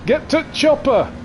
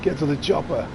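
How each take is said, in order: First: Hammed-up Arnie. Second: Said in the usual way. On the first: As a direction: bellow Get to chopper like an action hero. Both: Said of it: "What does he say?".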